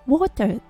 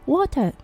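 First: The final R is barely pronounced. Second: The same.

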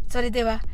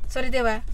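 The two takes are said the same way.

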